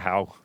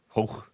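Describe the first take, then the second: First: The name rhymes with cow. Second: The name rhymes with go.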